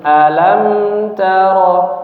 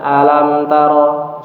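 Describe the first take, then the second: First: The intonation varies across the first word. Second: The intonation stays flat across the first word. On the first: It asks whether you have not seen. The speaker calls it right. "Membacanya itu sedikit kita bedakan intonasinya" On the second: It can be heard as a word meaning pain. The speaker calls it wrong. "Kalau kita baca datar saja"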